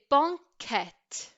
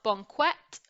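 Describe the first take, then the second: First: The qu is a plain k sound. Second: The qu is a kw sound. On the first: The speaker calls it right. "we would say banquette" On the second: The speaker calls it wrong. "not banquette"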